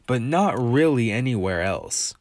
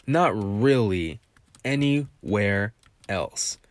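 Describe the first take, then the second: First: Said in the usual way. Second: "Not really anywhere else" said very slowly, each word leaned on; slow emphatic repeat. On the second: Shown as a demonstration.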